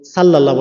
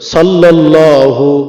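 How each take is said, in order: First: The word ends without the final u vowel. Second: The word ends with a final u vowel. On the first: The speaker calls it wrong. "সাল্লাল্লাহ বলবে না" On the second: The speaker calls it right. "শুদ্ধ করে সাল্লাল্লাহু"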